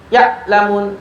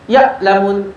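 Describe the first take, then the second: The two takes are said the same way.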